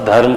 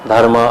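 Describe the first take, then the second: First: The word ends on a consonant, no final vowel. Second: The word ends with an added final vowel. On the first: The speaker calls it right. "I'll just pronunciate only" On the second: The speaker calls it wrong. "we always used to put the A at the end"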